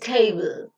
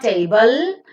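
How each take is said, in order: First: The final l forms a syllable without a vowel. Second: A vowel is said before the final l. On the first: The speaker calls it right. "you can never be introducing any vowel sound in between them" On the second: The speaker calls it wrong. "It's not"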